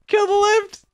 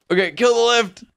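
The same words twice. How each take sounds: First: Very high, frantic cry; frantic call. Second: Raised, high-pitched urgency; urgent call. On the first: Player pleading to kill the lift, frantic. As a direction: squeal the order in panic. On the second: Player telling partner to kill the lift, urgent. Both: Real, not acted.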